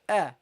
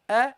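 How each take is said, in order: First: The vowel sounds light and clear. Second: The same.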